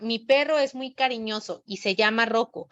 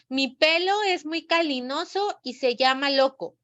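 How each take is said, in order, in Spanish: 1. Los sonidos de la r se pronuncian como r. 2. Los sonidos de la r se pronuncian como l. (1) "el alumno tiene que repetir y pronunciar" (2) "cambió la R por la L y la ñ por la N"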